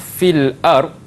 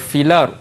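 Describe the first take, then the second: First: A glottal stop separates the two words. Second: The l runs straight into the vowel. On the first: "kalimah fil ard" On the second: "akan bertukar kepada filar"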